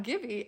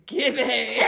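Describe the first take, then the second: First: Said in the usual way. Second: Loud, drawn-out comic growl of a name; laughing imitation of a menacing kid; mock menacing. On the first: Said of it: "we looked at him like". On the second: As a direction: shout your own name like a threatening catchphrase. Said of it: "All menacingly".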